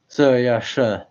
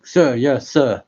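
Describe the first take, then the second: First: Muffled through the mask. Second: Loud sir yes sir through a mask; muffled through the mask. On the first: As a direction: repeat it muffled behind a mask. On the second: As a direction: call it out muffled behind a mask. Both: Acted. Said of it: "You want me to try saying".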